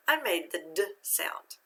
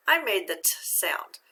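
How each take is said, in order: First: "d" sounded briefly with voice; voiced d. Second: "t" sounded as a voiceless tap of the tongue; unvoiced t. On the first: Teacher contrasts two ED endings, "d" voiced. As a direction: give "d" as its voiced sound, not the letter name. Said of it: "voiced and it will say d". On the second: Teacher contrasts two ED endings, "t" unvoiced. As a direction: give "t" as a pure unvoiced sound, not the letter name. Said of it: "unvoiced and make the sound t". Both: Shown as a demonstration.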